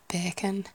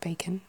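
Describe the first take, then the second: First: It is said in a Yorkshire accent. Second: It is said in a Received Pronunciation accent. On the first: "a more Yorkshire-y area would be, like, bacon" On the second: "the usual kind of received pronunciation of bacon"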